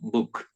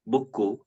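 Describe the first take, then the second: First: The word ends cleanly on the final consonant. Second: An extra vowel is added after the final consonant. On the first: The speaker calls it right. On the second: The speaker calls it wrong.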